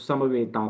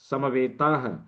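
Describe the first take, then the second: First: The word ends on a plain vowel, no h. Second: The word ends with an audible breathy h. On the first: The word is said within a running sentence. "जब इसको एक साथ sentence में बोलते हैं तो समवेता बोलते हैं" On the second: The word is said on its own. "यदि अलग बोलेंगे तो समवेताह बोलेंगे"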